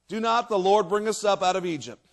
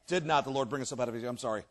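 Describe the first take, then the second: First: Said in the usual way. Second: Quick, low, soft reread; self-correcting. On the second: Real, not acted. Reader fixing a misread verse, quick quiet correction.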